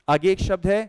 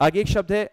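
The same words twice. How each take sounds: The two takes are said the same way.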